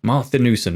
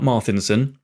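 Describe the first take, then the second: First: Marthinussen with an "oo" in "-nussen"; Marthinussen, the full name with its "noo" syllable; corrected name pronunciation. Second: Marthinson shortened, without the "oo" syllable; Marthinson, the "noo" syllable dropped; mistaken name pronunciation. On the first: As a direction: say Marthinussen in four syllables, mar-thi-NOO-sen. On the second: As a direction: say Marthinson in three syllables, ending "-inson". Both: Shown as a demonstration. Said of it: "not Marthinson".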